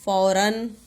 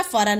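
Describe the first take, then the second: First: फौरन with a long औ after फ; फौरन sounded out as "fau-ran"; corrected word. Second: फरन with a short "a" after फ; clipped first vowel in फरन; misspelt word. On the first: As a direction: draw out the "au" in फौरन. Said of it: "लेकिन क्या होता है". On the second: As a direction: read फरन without any औ sound. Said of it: "शब्द क्या लिखा है". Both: Shown as a demonstration.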